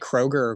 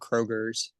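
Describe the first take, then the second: First: The name ends without an s sound. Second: The name ends with an added s sound. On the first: "do you say Kroger" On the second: "or Kroger's?"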